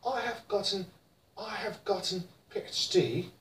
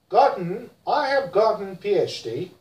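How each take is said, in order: First: British gotten, much softer, crisp t; British accent. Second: American gotten, flapped t; American accent. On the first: Teacher models British gotten: British accent. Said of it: "In British". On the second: Teacher models American gotten: American accent. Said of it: "In America". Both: Shown as a demonstration.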